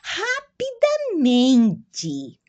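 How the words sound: It is pronounced with Portuguese sounds. "Em português é"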